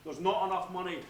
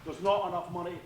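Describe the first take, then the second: No difference in how they are said.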